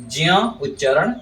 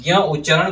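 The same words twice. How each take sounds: First: ज्ञ said as "jya", starting on j; correct "jya". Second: ज्ञ said as "gya", hard g; wrong "gya". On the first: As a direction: say ज्ञ as j plus y. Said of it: "शुद्ध है". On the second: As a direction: say ज्ञ as g plus y. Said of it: "गलत है". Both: Shown as a demonstration.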